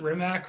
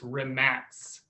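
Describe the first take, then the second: First: The name ends with a k sound. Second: The name ends with a ts sound. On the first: It is said the way it is spelled. "we've all called it Rimac forever, right? Because it's the way it looks" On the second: It is said the way its owner says it. "he's come out now and said it's Rimats"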